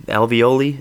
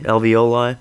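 First: Alveoli said as al-vee-OH-lee, trying it out; unsure pronunciation. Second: Alveoli said as al-vee-OH-lie, ending in lie; second try at the word. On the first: Comedian unsure how to say alveoli, testing it aloud. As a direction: try alveoli ending in lee. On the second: Comedian trying the other way to say Alveoli. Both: Shown as a demonstration. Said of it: "however the hell you say".

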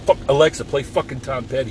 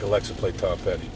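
First: Yelling at the smart speaker; sudden loud swearing burst, higher; angry outburst. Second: Said in the usual way. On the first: Retold or imitated. Yelling at Alexa to play [name], angry shout. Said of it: "have an outburst like that". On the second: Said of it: "like, like".

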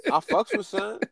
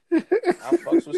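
First: Said in the usual way. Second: Slow, high, laughing through it; laughing, drawn out. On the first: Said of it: "repeats line in new way". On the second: Shown as a demonstration. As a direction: stretch it out while laughing. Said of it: "repeats line drawn out laughing".

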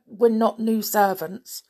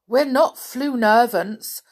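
First: Said in the usual way. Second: "Floo-nervants" said for "new servants", sounds swapped; a higher, louder dwarf tripping into "Floo-nervants"; muddled words. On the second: A narrator's reading. Doc protests to the guard, muddling it as "Floo-nervants".

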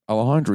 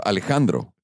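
First: "Alejandro" with loose American vowels; English-accented pronunciation. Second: "Alejandro" with crisp Spanish vowels; Mexican pronunciation. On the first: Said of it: "instead of Alejandro". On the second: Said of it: "pronounced proper, properly Mexican". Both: Retold or imitated.

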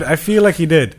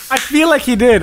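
First: Said in the usual way. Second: "I feel like he did" pitched up with weight on "like"; emphatic. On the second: Shown as a demonstration. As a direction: lift "I feel like he did", pressing "like".

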